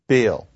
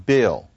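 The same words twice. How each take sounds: Both takes have the same delivery.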